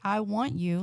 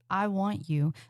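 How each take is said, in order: First: It sounds casual and flat, like an ordinary request. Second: It sounds hungry and intense, full of desire. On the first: It is an everyday request with no desire behind it. The speaker calls it wrong. "like you're asking for a sandwich" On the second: It signals strong sexual intent. The speaker calls it right. "like you're about to ruin their week in the best way possible"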